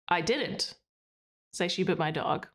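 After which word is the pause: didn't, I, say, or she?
didn't. There is a pause after the word didn't.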